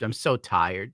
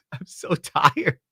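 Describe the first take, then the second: First: Said in the usual way. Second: Slow, drawn-out tired moan; weary drawl. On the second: Real, not acted. Streamer groaning to chat about being worn out, slow weary drawl. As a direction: stretch it out like you're exhausted.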